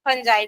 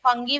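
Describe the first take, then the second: First: It has a soft j and ends in 'eye'. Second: It has a hard g and ends in 'ee'. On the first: This is the real pronunciation. The speaker calls it right. "फंजाई ही मेरे ख्याल से real उसका pronounce है" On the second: This is how many people read the spelling. The speaker calls it wrong. "कई लोग फंगी पढ़ते हैं"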